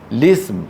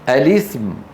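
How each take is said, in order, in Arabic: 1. تبدأ مباشرة بصوت اللام. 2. تبدأ بهمزة وبعدها حركة. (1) "بلام مكسورة مباشرة بدون همزة الوصل" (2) "بهمزة مفتوحة وبعدها لام مكسورة"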